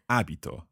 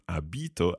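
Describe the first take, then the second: First: The stress is on the first syllable. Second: The stress is on the second syllable. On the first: The speaker calls it right. "so the stress is on the first syllable of this verb" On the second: The speaker calls it wrong. "It's not abito, abiti or anything like that"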